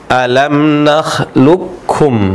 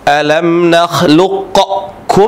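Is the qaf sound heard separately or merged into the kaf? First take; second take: merged; separate. First: The qaf merges into the following kaf sound. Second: The qaf is pronounced separately with an echoing bounce. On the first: The speaker calls it right. "Di sini leburlah suara huruf qaf" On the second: The speaker calls it wrong. "Huruf qaf memiliki qalqalah ya. Seharusnya dibaca"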